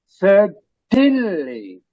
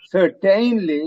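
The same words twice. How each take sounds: First: The vowel before the ending is almost silent. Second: The vowel before the ending is clearly pronounced. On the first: The speaker calls it right. "That A is almost silent" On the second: The speaker calls it wrong. "you don't say certainly"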